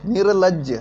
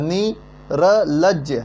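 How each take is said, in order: First: निर्लज्ज said as one word with र before ल; joined up. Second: नी र लज्ज said slowly, each part apart; syllable by syllable. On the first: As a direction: blend निर्लज्ज together smoothly. (निर्लज्ज जोड़कर एक साथ) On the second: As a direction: break नी र लज्ज into separate slow pieces. (नी र लज्ज धीरे-धीरे अलग-अलग) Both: Shown as a demonstration. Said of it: "इसका उच्चारण कहाँ से होता है".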